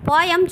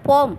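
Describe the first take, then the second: First: The word is said as two syllables. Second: The word is said as one syllable. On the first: The speaker calls it wrong. "போயம் சொல்லக்கூடாது" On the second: The speaker calls it right. "போம் அப்படி தான் சொல்லணும்"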